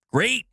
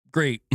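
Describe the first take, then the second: First: High, rising mock-pleased "Great"; sarcastic cheer. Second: Falling, unimpressed "Great"; deflated sarcasm. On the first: Streamer reacting to uncaring publishers, sarcastic cheer. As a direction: fake delight, pitched up. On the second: Streamer resigned to uncaring publishers, deflated sarcasm. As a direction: let the fake delight drop away. Deflated repeat of same word. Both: Real, not acted.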